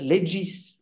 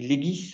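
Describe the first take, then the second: First: The word is said the Italian way. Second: The word is said the Belgian way. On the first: "Ceux qui sont allés en Italie disent le legis" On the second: "En Belgique, on dit legis"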